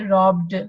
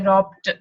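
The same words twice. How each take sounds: First: The ending is a voiced d sound. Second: The ending is a voiceless t sound. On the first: The speaker calls it right. "but we would say robbed. Okay, that means robbed, because this is voiced, so it would be followed by voiced" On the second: The speaker calls it wrong. "we cannot say robbed"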